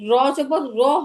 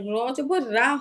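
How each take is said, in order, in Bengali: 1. শেষ অক্ষরটি ছোট স্বরে শেষ হয়। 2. শেষ অক্ষরটি দীর্ঘ স্বরে শেষ হয়। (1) "র জবর র হবে" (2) "র জবর রা হবে না"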